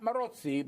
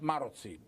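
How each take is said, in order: First: The stress falls on a later syllable. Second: The stress falls on the first syllable. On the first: The speaker calls it wrong. "Not Marozzi" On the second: The speaker calls it right. "but Marozzi. Hungarian names are always stressed on the first syllable"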